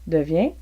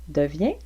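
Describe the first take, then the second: The two takes are said the same way.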